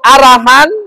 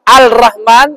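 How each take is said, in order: First: The L merges into a doubled R sound. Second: The L is sounded, and the R is not doubled. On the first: The speaker calls it right. "Ar-Rahmanir Rahim ditasdidna" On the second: The speaker calls it wrong. "menghilangkan tasdid suatu huruf, misalnya membaca Ar-Rahman dengan Al-Rahman"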